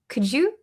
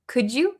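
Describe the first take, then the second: First: The words are run together like couldja. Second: The same.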